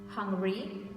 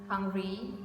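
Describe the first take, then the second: No difference in how they are said.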